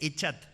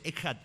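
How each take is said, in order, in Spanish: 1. La consonante del medio es un sonido 'ch' suave. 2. La consonante del medio es un sonido áspero y gutural. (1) "dice echat. No" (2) "ponele una K, porque la idea es que se pronuncia ejad"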